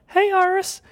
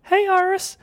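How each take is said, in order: First: It is said in a very high-pitched voice. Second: It is said in a very high-pitched voice.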